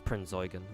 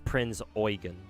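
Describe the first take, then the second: First: It is said quickly, with the vowel running together. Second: It is said carefully, with an 'oi' sound. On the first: "if you say it fast" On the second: "The E U is supposed to be pronounced Oi"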